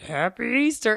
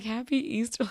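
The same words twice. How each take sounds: First: Loud, higher gruff greeting; gruff old man. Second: Higher, puzzled repeat; baffled echo. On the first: Old guy to kids at the mall, gruff shout. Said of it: "then with his little gruff". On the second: Shopper reacting to the odd greeting, baffled. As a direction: echo it in mild disbelief. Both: Retold or imitated.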